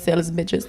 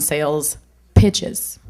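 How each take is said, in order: First: The second word starts with a B sound. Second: The second word starts with a P sound.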